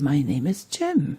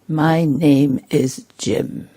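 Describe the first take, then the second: First: It is said in a warm, friendly tone. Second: It is said in an arrogant, superior tone. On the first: The speaker welcomes the listener. The speaker calls it right. "or very friendly" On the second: The speaker thinks himself above the listener. The speaker calls it wrong. "very arrogant"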